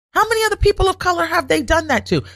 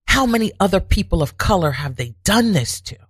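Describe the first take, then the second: First: Outraged rhetorical question, much higher; indignant higher repeat. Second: Said in the usual way. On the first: Real, not acted. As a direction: pitch jumps up on the repeat. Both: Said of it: "it came to me".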